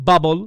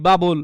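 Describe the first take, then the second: First: বাবল with a punched English b, pitched low; foreign speakers' pronunciation. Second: Said in the usual way. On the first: Shown as a demonstration. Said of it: "তারা কি বলে". (বাবল, বিদেশিদের মতো ব উচ্চারণে) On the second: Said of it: "আপনারা আমরা বাংলায় কি বলি".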